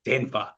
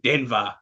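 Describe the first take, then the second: First: It is said as an exaggerated imitation of that accent. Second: It is said as an exaggerated imitation of that accent.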